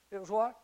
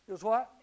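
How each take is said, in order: Both takes have the same delivery.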